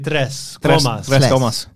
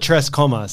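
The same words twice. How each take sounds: First: The R in Tres is rolled. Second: The R in Tres is not rolled. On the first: "you're supposed to say" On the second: "I call it"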